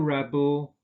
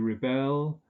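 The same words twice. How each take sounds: First: The stress is on the first syllable. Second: The stress is on the second syllable. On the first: It is used as a noun. "a rebel" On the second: It is used as a verb. "but to rebel"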